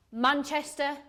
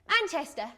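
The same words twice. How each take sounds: First: Said in the usual way. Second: Doubtful, condescending repeat of Manchester; unconvinced little Manchester; sceptical echo. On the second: Acted. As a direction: echo Manchester as if it were somewhere foreign.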